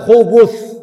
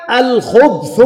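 First: خبث as "khubuth", u after the ب; damma on the ب. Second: الخبث as "al-khubth", no vowel after ب; sukun on the ب. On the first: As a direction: say خبث in two syllables, khu-BUTH. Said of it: "بضم الباء". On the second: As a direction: close the ب of الخبث straight onto the th. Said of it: "بسكون الباء". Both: Shown as a demonstration.

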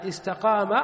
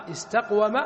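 First: "استقام" with a long aa after the qaf; changed form. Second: "استقوم" with a silent qaf, then wa; original form. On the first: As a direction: say istaqaama, gliding through the long alif. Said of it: "فصارت على هذه الهيئة". (نطق «استقام» بألف ممدودة بعد القاف) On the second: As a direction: say istaq-wama, sounding the waw. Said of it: "على وزن استقوم". (نطق «استقوم» بقاف ساكنة وواو مفتوحة) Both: Shown as a demonstration.

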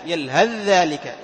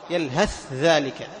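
First: Slow, "يلهث ذلك" with the ث fully merged into a doubled ذ; merged reading. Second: Very slow, "يلهث ذلك" with ث and ذ each said clearly apart; separated reading. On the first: Teacher showing Hafs's reading to students, slow full merging. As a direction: say "يلهث ذلك" as yalhadh-dhālik, no ث heard. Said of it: "إدغام محض من حفص". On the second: Teacher showing other readers' clear reading, very slow and separate. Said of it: "بعض القراء يظهر". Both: Shown as a demonstration.

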